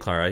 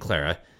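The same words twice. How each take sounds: First: Clara is said with a non-American pronunciation. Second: Clara is said with an American pronunciation. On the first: "I'm saying Clara" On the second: "I say Clara just because I think it's my American accent"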